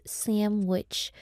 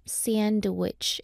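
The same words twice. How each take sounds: First: Slow "sandwich" with m for nd, "sammm-wich"; said as "samwich". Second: "sandwich" carefully spelt out as "san-duh-wich"; said with a clear d. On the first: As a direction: drop the d, say "sandwich" as SAM-wich. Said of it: "it's sandwich". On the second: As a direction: pronounce the n and d in "sandwich", slowly. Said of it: "It's not sandwich". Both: Shown as a demonstration.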